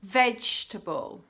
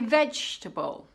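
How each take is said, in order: First: A sound or syllable is dropped. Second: A sound or syllable is dropped.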